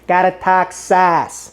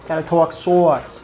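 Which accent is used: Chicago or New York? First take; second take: Chicago; New York. First: It is said in a Chicago accent. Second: It is said in a New York accent. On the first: The speaker calls it right. "to Chicago" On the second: The speaker calls it wrong. "I should change the New York accent"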